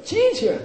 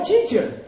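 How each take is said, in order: First: High-pitched emphatic cry; with feeling. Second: Said in the usual way. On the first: Shown as a demonstration. Teacher showing students how to say it with feeling. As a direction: fling the word out high, with feeling. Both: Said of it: "But say it with feeling".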